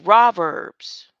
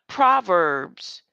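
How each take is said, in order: First: The word begins without any P sound. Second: The word begins with a clear P sound. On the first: The speaker calls it right. "The P has always been silent" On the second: The speaker calls it wrong. "It's not Proverbs"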